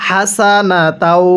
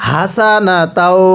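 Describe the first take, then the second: First: হাসানাতাও begun on a light puff of air; light airy ha. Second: হাসানাতাও with a hard, sounded "haa"; wrongly voiced ha. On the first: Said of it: "মুখ দিয়ে হালকা বাতাস বের করতে হবে". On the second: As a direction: give the first h of হাসানাতাও too much voice. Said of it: "মুখ দিয়ে আওয়াজ করি". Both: Shown as a demonstration.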